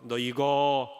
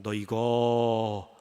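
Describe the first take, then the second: First: Low, slow menacing warning; threatening housekeeper. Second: Slow, low, menacing warning; threatening housekeeper. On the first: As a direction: hold up the threat darkly. Housekeeper threatens once more. (낮게 위협하는 가정부) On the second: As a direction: draw it out as a veiled threat. (느리고 낮게 위협하는 가정부) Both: Acted.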